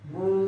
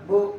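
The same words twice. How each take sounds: First: The vowel is stretched out long. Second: The vowel is cut off with a jerk. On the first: "টান দেওয়া যেমন বু" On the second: "ঝটকা দেওয়া যেমন বু"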